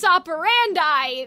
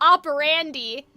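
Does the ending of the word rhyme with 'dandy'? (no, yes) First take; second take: no; yes. First: The ending does not rhyme with dandy. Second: The ending rhymes with the word dandy. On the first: The speaker calls it right. "if it's modus operandi, that doesn't rhyme" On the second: The speaker calls it wrong. "she's saying it to rhyme with dandy and brandy"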